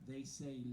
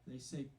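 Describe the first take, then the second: The two takes are said the same way.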